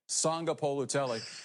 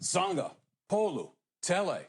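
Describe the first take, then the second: First: The name is said as one joined whole. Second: The name is split into three separate chunks. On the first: "Put it all together" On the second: "just you break it up"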